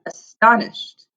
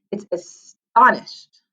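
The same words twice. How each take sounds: First: Astonished said slowly, syllable by syllable; model word astonished. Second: Astonished said slowly and clearly; model word astonished. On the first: Teacher models astonished for the class to repeat. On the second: Teacher introduces astonished, slow and clear. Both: Shown as a demonstration. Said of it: "Everybody say that".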